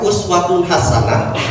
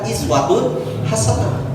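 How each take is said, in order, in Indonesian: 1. Kata pertama diawali dengan vokal 'u'. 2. Kata pertama diawali dengan vokal 'i'. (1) "bisa dibaca uswatun hasanah" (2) "bisa dibaca iswatun hasanah"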